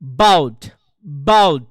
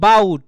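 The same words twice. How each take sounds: First: বাউট punched with a falling English "bout"; English pronunciation demo. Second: বাউট with a plain Bengali "ba-ut"; Bengali-style pronunciation. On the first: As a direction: hit the b of বাউট hard and let it drop. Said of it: "ইংলিশে কিন্তু বাউট না". (বাউট, ইংরেজি উচ্চারণে জোর দিয়ে) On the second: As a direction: say বাউট evenly, as spelt in Bengali. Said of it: "এটা যদি বলেন আপনি এভাবে". (বাউট, বাংলা ধাঁচে) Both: Shown as a demonstration.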